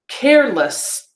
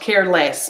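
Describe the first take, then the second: First: The ending has a weak 'uh' vowel. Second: The ending has a strong 'e' vowel. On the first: The speaker calls it right. "when I'm using it as a suffix, it's an uh" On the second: The speaker calls it wrong. "not careless"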